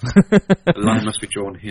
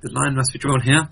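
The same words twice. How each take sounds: First: It is said in a serious, dramatic tone. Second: It is said in a light, jokey, polite tone.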